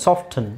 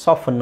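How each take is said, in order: First: "ಸಾಫ್ಟನ್" as "soft-un"; sounded T. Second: "ಸಾಫನ್" as "sof-fun"; silent T. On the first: Teacher repeating both options for soften, sounded T. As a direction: keep the T in "ಸಾಫ್ಟನ್". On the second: Teacher repeating both options for soften, silent T. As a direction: leave the T out of "ಸಾಫನ್". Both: Shown as a demonstration. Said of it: "ಎರಡೂ use ಮಾಡ್ತಾನೆ".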